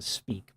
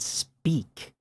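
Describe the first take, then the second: First: The vowel is plain and unemphasized. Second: The vowel is bright and emphasized. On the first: The word is not being emphasized. "If I didn't want to emphasize the word speak, I would have done it speak" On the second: The word is emphasized expressively. "I made that shit bright"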